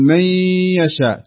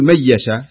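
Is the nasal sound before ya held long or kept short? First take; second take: long; short. First: The nasal sound before ya is held long. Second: The nasal sound before ya is kept short. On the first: The speaker calls it right. "تقول من يشاء، تغن مقدار حركتين" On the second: The speaker calls it wrong. "ما تقول من يشاء"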